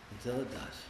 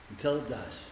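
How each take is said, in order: First: Much softer echo, almost breathed; near hush. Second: Softer, sinking down; quiet. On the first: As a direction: echo it very softly to yourself. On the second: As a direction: let it settle quietly. Repeats phrase, dropping voice. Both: Real, not acted.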